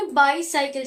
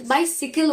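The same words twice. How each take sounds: First: बाईसाइकिल said "bai-sai-kil" like two cycles; बाईसाइकिल with "sai" in the middle; wrong pronunciation. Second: बाइसिकल said "bai-si-kal" with a short si; बाइसिकल, short i in the middle; correct pronunciation. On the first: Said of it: "जबकि वो बाइसिकल होता है". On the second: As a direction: say it right: बाइसिकल. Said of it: "not बाईसाइकिल". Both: Shown as a demonstration.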